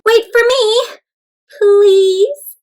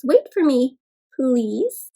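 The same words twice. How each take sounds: First: High pleading call with a pause before "please"; high, drawn-out "please" after a clear break; pausing plea. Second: Plain-pitched "Wait for me", a pause, then "please"; matter-of-fact demo of the break before "please"; pause at the comma. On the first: A narrator's reading. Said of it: "But comma kept pausing". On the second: Shown as a demonstration. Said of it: "comma that makes you pause".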